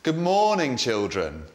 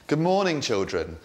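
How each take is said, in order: First: It is slow with pitch moving up and down. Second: It is slow with fairly flat pitch.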